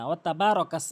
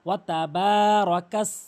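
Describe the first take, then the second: First: The vowel in ba is short. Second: The vowel in ba is long. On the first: The speaker calls it wrong. "অনেকেই টেনে পড়ে না" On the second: The speaker calls it right. "অবশ্যই কিন্তু বা এক আলিফ টেনে পড়বেন"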